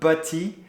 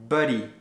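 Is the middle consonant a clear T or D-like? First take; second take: clear T; D-like. First: The T is pronounced as a clear T. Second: The T is softened to sound like a D. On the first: The speaker calls it wrong. "it's not butty" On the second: The speaker calls it right. "it's like buddy"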